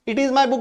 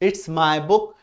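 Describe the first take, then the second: First: It is said in full as two words. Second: It is contracted to one syllable, its. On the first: "भी बोलेंगे तो भी सही है" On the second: "इसको short में कैसे बोलते हैं?"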